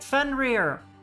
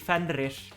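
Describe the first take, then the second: First: It is said in an American English accent. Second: It is said in Icelandic with rolled R's. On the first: "it's so weird to say that with with my English accent" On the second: "The Icelandic pronunciation would be Fenrir"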